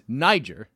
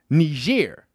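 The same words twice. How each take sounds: First: The name is said the English way. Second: The name is said the French way. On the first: This is the older, familiar pronunciation. "the country formerly known as Niger" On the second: This is the newer pronunciation used on the news. "what they're now pronouncing Niger"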